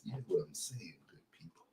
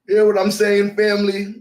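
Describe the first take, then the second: First: Breathy hushed whisper to the flock. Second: Louder, higher call to the church; rally the congregation with it. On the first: Preacher whispering to his online congregation. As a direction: lean in and whisper the question. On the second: Preacher calling out to his church family, louder. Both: Pretend.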